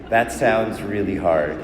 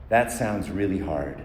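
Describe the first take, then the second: First: Earnest sympathy. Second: Sympathetic demo. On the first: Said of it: "But you gotta mean it". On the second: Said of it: "practice with me. Say it with me". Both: Shown as a demonstration.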